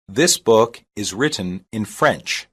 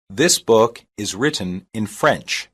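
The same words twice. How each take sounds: The two takes are said the same way.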